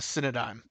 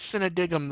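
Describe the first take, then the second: First: The name ends with a 'dime' sound. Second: The name ends with a 'digum' sound. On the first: The speaker calls it right. "I said it once for once" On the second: The speaker calls it wrong. "I always read it as Cinedigum though"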